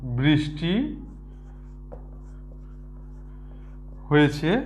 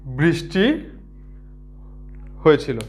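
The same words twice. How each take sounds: First: বৃষ্টি হয়েছে drawn out softly with a long pause; spaced soft dictation; slow dictation. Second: বৃষ্টি হয়েছিল read out word by word, rising on বৃষ্টি; spaced contrasting dictation; slow dictation. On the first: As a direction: read বৃষ্টি slowly, then হয়েছে. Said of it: "বৃষ্টি হয়েছে বললে". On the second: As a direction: dictate বৃষ্টি then pause before হয়েছিল. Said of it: "কিন্তু বৃষ্টি হয়েছিল". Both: Shown as a demonstration.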